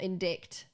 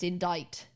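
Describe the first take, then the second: First: The c is sounded as a k. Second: The c is silent, rhyming with 'write'. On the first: The speaker calls it wrong. "It's not indict" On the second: The speaker calls it right. "It's indict"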